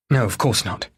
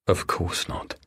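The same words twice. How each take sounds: First: Said in the usual way. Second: Softer, whispered echo to himself; bitter whisper. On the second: Acted. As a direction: whisper it back, hurt. Paul echoing her to himself.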